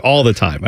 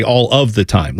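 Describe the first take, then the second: First: Said in the usual way. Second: "of" pronounced fully in "all of the time"; full, careful wording. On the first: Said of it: "I would not just be like". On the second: Shown as a demonstration. Host admitting formal habits, "of" fully sounded. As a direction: enunciate "of" as its own word, low and even. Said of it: "I would add in the of".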